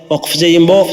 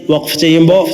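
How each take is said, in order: Both takes have the same delivery.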